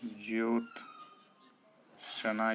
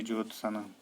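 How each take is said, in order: First: ज्योत्सना slowly split, "jyot", pause, "sna"; correct pronunciation. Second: ज्योत्सना run together as "jot-sana"; wrong pronunciation. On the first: Teacher gives the right form, ज्योत्सना slowly in parts. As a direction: break ज्योत्सना in two and stretch it. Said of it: "ये शुद्ध है". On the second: Teacher voices the error, unbroken ज्योत्सना. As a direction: say ज्योत्सना at normal speed as the error. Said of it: "ना कि ये". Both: Shown as a demonstration.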